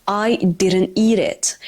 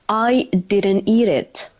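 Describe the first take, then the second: First: The words run together with softened, flapped consonants. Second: The words run together with softened, flapped consonants.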